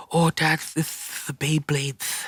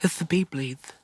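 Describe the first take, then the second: First: Put-on high, slow little kid lisp; child with a lisp. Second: Put-on high little kid lisp; lisping small boy voice; child with a lisp. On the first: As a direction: imitate a small boy's lisp. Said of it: "And he had a lisp". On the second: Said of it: "little lisp".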